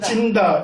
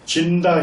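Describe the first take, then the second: First: The first consonant is tense and strong. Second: The first consonant is plain and soft. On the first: The speaker calls it wrong. "진짜를 세게 해서 찐다 이렇게 하니까" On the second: The speaker calls it right. "진다 형제님 이렇게 좀 불러주시기 바라는데"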